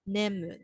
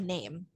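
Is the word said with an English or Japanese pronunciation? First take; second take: Japanese; English. First: It is said with a Japanese pronunciation. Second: It is said with an English pronunciation. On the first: "This is the Japanese pronunciation" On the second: "if you were to use like English pronunciation"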